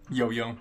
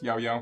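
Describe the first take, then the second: First: Each syllable has a plain 'oh' vowel sound. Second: Each syllable has an 'ow' vowel sound. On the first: The speaker calls it wrong. "No, wrong" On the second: The speaker calls it right. "that that's how you pronounce it"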